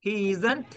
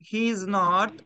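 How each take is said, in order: First: Is and not are merged into one short word. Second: Is and not are said as two full words.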